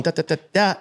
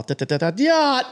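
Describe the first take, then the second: First: Even engine noise, da da da; steady engine imitation. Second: Engine noise jumping much higher, falling off; revving engine imitation. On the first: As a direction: imitate a smooth engine rev. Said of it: "instead of just going". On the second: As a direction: rev the engine high and wild. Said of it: "it's all".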